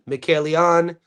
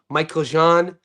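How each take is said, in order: First: The name ends with an 'ian' sound. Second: The name ends with a 'john' sound.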